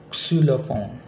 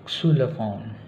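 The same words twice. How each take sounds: No difference in how they are said.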